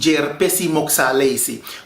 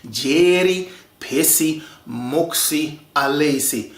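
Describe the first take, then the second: First: The words are run together and shortened. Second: Every word is said fully and separately. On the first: This is how people actually say it. "We have a tendency to contract words" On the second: This is the formally correct form nobody uses. "the absolute correct way of pronouncing this"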